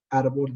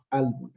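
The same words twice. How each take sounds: First: Said in the usual way. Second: "árbol" said as "albol", slowly; childlike r-to-l swap. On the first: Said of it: "en vez de decir árbol". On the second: Shown as a demonstration. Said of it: "dice árbol".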